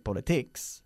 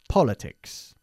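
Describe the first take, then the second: First: The stress falls on a later syllable. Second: The stress falls on the first syllable. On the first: The speaker calls it wrong. "we don't say politics" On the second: The speaker calls it right. "Enfatizando la primera sílaba"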